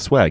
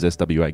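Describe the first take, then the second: First: It is said as a single word. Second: It is said letter by letter. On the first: It is an acronym. The speaker calls it right. "you say it as swag" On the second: It would be an initialism. The speaker calls it wrong. "You don't say it as"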